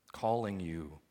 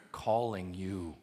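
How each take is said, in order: Both takes have the same delivery.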